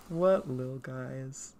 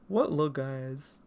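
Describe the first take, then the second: First: Much slower, lingering repeat; drawn out. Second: Said in the usual way. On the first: Real, not acted. Admiring old drawings of little characters, drawn-out delivery. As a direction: linger on each word.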